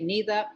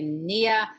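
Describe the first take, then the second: First: It is said in Woodland Cree, with th. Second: It is said in Plains Cree, with y.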